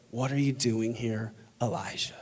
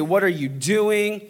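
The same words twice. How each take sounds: First: Soft, low, tender question; gentle whisper. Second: Mildly raised, slow, emphatic question; God speaking loud. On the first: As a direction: drop to a hushed, low voice. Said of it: "the sound of a gentle whisper". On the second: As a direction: confront them with a slow, firm question. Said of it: "God, he can speak loud". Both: Acted.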